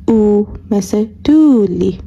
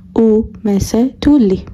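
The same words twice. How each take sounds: First: تولی with the u held long, slow and voiced; voiced long-vowel demo. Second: تولی with a short u, breathed without voice; whispered short-vowel demo. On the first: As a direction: stretch the u in تولی. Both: Shown as a demonstration. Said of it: "ببینیم فرقشون چطوریه".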